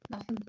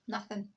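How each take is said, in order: First: The 'th' is replaced by another sound. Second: The 'th' sound is clearly pronounced. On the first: "Glasgow Vernacular uses F H instead of th" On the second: "but in Glasgow Standard English, it's something, nothing. It's pronounced"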